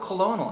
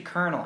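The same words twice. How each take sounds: First: The word is pronounced just as it is spelled. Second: The word is pronounced unlike its spelling. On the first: A reader guessed it from the page. The speaker calls it wrong. "when you read things, you just assume pronunciations" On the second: This is how people really say it. The speaker calls it right. "no, it's actually colonel"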